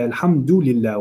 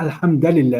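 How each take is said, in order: First: Alhamdulillah said with a clear u after alham: alham-du-lillah; correct pronunciation. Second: Alhamdulillah with an a sound in the middle, said as alhamdalillah; wrong vowel. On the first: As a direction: give alhamdulillah its proper u vowel, carefully. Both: Shown as a demonstration. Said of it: "It's not alhamdulillah".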